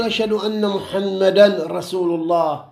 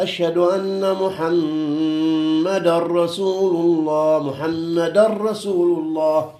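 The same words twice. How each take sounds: First: "محمدا" ends with a clear n sound before "رسول", no merging; wrong, nun sounded. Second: Slow, the tanween of "محمدا" swallowed into a doubled r of "رسول"; correct idgham. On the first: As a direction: pronounce the tanween of "محمدا" fully as muhammadan rasul, the error. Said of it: "هني بعد ما يصير تقول". (إظهار تنوين "محمدا" قبل "رسول" خطأً) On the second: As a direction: merge "محمدا رسول" into muhammadarrasul with a heavy r. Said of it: "تقول هكذا". (إدغام تنوين "محمدا" في راء "رسول" مع التشديد) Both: Shown as a demonstration.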